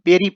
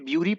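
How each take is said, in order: First: The word begins with a 'beh' sound. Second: The word begins with a 'bew' sound. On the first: The speaker calls it right. "लेकिन दोस्तों इसे बेरी पढ़ा जाता है" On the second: The speaker calls it wrong. "Generally कोई भी इसे ब्यूरी पढ़ेगा"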